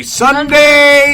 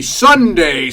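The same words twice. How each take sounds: First: Higher, louder hyped-up call; hype ad shout. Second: Said in the usual way. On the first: Acted. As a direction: belt it like an announcer.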